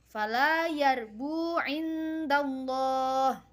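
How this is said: The recitation stops after the final word. The reader pauses at the permitted stopping point. "Contoh yang dibaca wakaf"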